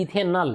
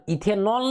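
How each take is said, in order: First: इथेनॉल said as "ethe-nal", ending in -al; corrected ending. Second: इथेनॉल ending in a round "-nol"; wrong ending shown. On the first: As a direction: say इथेनॉल with an unrounded a in the last syllable. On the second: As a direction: say इथेनॉल with an o in the last syllable, higher. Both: Shown as a demonstration. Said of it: "इथेनॉल नहीं".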